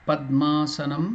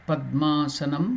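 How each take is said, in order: The two takes are said the same way.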